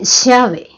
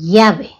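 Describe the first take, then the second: First: The ll is pronounced with a different highland sound. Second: The ll is pronounced like a y sound. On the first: "Y en la Sierra Central, um, en cambio, dicen llave" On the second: "en la costa no se la pronuncia llave, sino llave, ¿sí? Con la Y"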